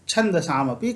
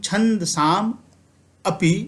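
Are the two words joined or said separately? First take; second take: joined; separately. First: The final m links straight into the next word. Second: The two words are said separately. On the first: "ये दोनों मिलके यह पूर्ण म बना दिए" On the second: "यह कहने की अपेक्षा"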